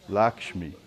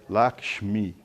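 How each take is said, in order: No difference in how they are said.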